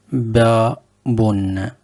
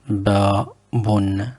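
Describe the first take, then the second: First: Babun, stretched out slowly syllable by syllable; teacher sounding out babun very slowly for learners; slow demo word. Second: Said in the usual way. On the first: Shown as a demonstration. Teacher models the new word slowly. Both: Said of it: "on commence avec le premier mot".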